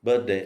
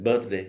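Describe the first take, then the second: The two takes are said the same way.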